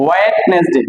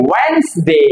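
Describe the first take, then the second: First: ওয়েডনেসডে as WET-nes-de, three syllables; wrong pronunciation. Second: ওয়েডনেসডে slowly as WENS-day, silent d; correct pronunciation. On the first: Teacher quoting people's mistake, wrong pronunciation. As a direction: say ওয়েডনেসডে with the d sounded. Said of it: "ভুল করে বলে". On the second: Teacher giving the right form, correct pronunciation. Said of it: "এটা হবে". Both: Shown as a demonstration.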